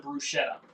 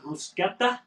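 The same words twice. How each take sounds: First: The word is said the everyday English way. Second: The word is said the Italian way.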